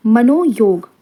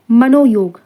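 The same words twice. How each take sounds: The two takes are said the same way.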